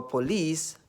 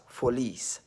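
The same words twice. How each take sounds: First: Said in the usual way. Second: "folies" with F in place of the P of "police"; northern Nigerian pronunciation. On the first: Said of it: "They call police as folies". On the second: Shown as a demonstration. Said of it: "people from the north who cannot pronounce".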